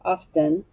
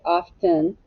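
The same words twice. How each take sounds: First: The second syllable has a short 'ih' vowel. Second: The same.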